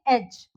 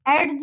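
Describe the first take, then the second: First: No d sound is pronounced before the final sound. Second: A d sound is pronounced before the final sound. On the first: The speaker calls it right. "हम इसको क्या pronounce करेंगे" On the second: The speaker calls it wrong. "एज नहीं बोलेंगे हम उसको"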